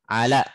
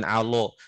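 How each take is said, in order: First: The lam is pronounced thin and light. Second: The lam is pronounced heavy and thick. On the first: The speaker calls it right. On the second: The speaker calls it wrong.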